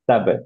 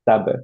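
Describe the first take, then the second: First: The lips close and release with a bounce. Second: The same.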